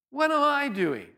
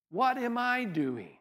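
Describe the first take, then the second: First: Higher, slow, emphatic self-question; What am I doing, asked higher and insistent; pressing question. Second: Softer, slow self-question; hushed What am I doing; quiet searching. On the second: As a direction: ask it softly, almost to yourself. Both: Shown as a demonstration.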